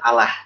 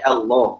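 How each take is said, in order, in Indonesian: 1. Bunyi l-nya tipis dan ringan. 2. Bunyi l-nya tebal dan berat. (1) "bukan Allah" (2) "kenapa lamnya dibaca tebal seperti itu?"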